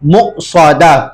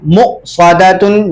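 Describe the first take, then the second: First: The word stops without the final -tun. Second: The word ends with a full nasal -tun. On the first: The reader pauses on the word. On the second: The word is read in connected reading.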